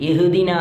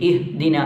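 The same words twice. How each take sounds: The two takes are said the same way.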